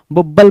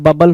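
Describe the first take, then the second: First: बुब्बल with a short u, like bubble read letter by letter; wrong pronunciation. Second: Said in the usual way. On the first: Shown as a demonstration. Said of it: "बबल होता है भाई". (गलत उच्चारण बुब्बल) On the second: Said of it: "बुब्बल बोल रहा है".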